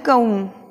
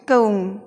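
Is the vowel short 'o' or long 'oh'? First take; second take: long oh; long oh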